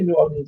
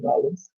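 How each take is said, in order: First: The name is said in full, as outsiders say it. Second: The name is squeezed into Nawlins, as locals say it.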